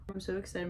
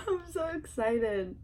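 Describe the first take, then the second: First: Said in the usual way. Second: Slow, laughing, teary-sounding excitement; laughing excited. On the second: Real, not acted. To viewers about mom's haircut, laughing excitedly. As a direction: let the joy break through with a laugh.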